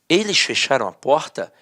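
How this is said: It is read as a question.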